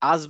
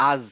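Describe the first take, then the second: No difference in how they are said.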